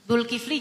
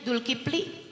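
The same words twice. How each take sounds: First: The name is said in a plain accent. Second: The name is said in a Sundanese accent.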